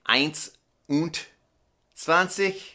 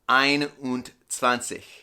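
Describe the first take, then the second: First: The first word ends with an s sound. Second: The first word ends without an s sound. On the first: The speaker calls it wrong. "instead of saying" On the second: The speaker calls it right. "you take off the S"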